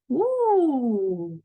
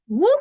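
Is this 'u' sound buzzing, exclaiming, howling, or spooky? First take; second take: spooky; exclaiming. First: The vowel is a spooky, scary wail. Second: The vowel is a short effortful exclamation. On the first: It imitates a ghost scaring someone. "Як робить привид, як лякає" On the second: It imitates a boy casting a fishing rod. "хлопчик закидує вудочку і так говорить"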